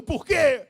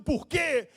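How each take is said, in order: First: Loud, high despairing cry of why; anguished shout. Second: A cry of why, pitched up; crying out to God in despair; mock anguished cry. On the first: Retold or imitated. Pastor shouting his own cry of why at God, full-voiced. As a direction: shout it up at heaven. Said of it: "quantas vezes eu grito". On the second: Pastor voicing a grieving believer's cry, anguished yell. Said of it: "tô ouvindo você gritando".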